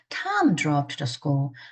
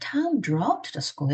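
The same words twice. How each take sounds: First: The word Tom carries the main stress. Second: The word drove carries the main stress. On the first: This person went, not someone else. "John이 아니라" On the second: He went by car rather than walking. "걸어가지 않고 운전해서 갔어"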